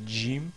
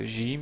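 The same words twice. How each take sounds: First: The word begins with a j sound. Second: The word begins with a French-style g sound. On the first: This is the standard pronunciation. "au lieu de" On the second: This is how some dialects say it. "le Jim se prononce comme si c'est un G français"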